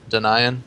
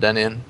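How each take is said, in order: First: The first syllable sounds like the word deny. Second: The first syllable does not sound like deny. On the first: The speaker calls it right. "It's Denian" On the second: The speaker calls it wrong. "instead of Denian"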